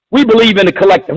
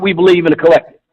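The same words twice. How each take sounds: First: Scornful repeat. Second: Mocking Kamala Harris. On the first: Retold or imitated. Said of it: "Who the fuck talks like that". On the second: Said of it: "talking about".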